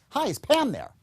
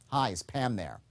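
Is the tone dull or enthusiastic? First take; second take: enthusiastic; dull. First: It sounds upbeat and enthusiastic. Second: It sounds flat and dull.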